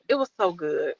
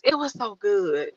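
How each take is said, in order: First: Quiet. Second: Said in the usual way. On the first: Real, not acted.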